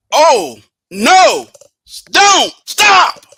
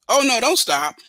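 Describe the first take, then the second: First: "Oh, no," then a clear pause, then "don't stop" said slowly; pause after no. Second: "Oh, no, don't stop" said as one quick plea, no pause after "no"; "don't stop" pushed on in one breath; run together. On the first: Passenger telling the driver to stop, with a pause after no. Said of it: "You see the difference?". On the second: Passenger urging the driver to keep going, run together. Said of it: "where I put the emphasis and the pause". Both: Shown as a demonstration.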